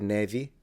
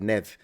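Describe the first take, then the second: First: The word ends with a clear final vowel. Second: The word ends abruptly without a final vowel. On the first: This is how it is said in Brazil. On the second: This is how it is said in Portugal.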